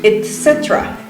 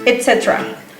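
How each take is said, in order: Both takes have the same delivery.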